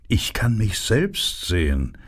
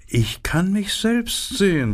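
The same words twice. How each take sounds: First: A hint of a vain flower admiring itself; lightly voiced narcissus. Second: Much higher, preening vain flower voice; vain narcissus. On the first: The narcissus admiring its own reflection, lightly voiced. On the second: The narcissus preening over itself, high and vain. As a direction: lift it up high, admiring yourself. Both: A narrator's reading. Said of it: "sagte die Narzisse".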